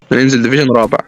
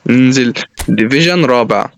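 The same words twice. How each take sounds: First: Said in the usual way. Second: "ننزل ديفيجن رابع" stretched out slowly and low; low, drawn-out "ننزل ديفيجن رابع" with pauses between words; slow, resigned repeat. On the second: Real, not acted.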